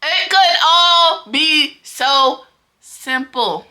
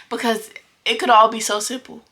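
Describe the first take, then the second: First: Each word dragged out slow and higher; slow, drawn-out, louder "It could all be so simple"; slow emphatic exasperation. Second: Said in the usual way. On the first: Real, not acted. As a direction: spell it out word by word, fed up. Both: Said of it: "repeated with rising force".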